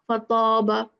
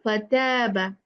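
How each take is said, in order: First: The long 'a' vowel sounds heavy and full. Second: The long 'a' vowel sounds light and thin. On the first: The speaker calls it wrong. "here we'll not say" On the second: The speaker calls it right. "We'll say"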